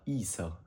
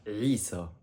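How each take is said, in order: First: It begins with a plain vowel sound. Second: It begins with a deep throat consonant. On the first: The speaker calls it wrong. "et non pas Isa" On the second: The speaker calls it right. "C'est bien avec un Ain au début"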